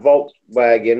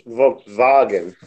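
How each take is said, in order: First: The first sound is an English W. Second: The first sound is a V. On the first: The speaker calls it wrong. "it's not Volkswagen" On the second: The speaker calls it right. "in German, W has a V sound"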